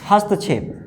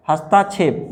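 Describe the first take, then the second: First: हस्तक्षेप with short ta, hast-kshep; no long aa in हस्तक्षेप; correct form. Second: हस्ताक्षेप with long aa after हस्त; wrong form. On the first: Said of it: "क्या होता है भैया". (हस्तक्षेप में त छोटा, बिना मात्रा) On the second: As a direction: say has-TAA-kshep for हस्ताक्षेप. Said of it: "ये नहीं होता है". (हस्ताक्षेप में ता लंबा) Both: Shown as a demonstration.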